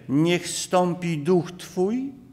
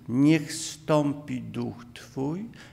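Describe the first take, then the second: First: The phrase is said at a higher pitch. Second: The phrase is said at a lower pitch.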